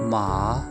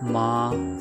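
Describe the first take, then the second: First: The syllable is said in the third tone. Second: The syllable is said in a flat tone. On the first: It means horse. "Third tone है हमने बोली थी माँ" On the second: It means mother. "Flat tone में माँ बोला है"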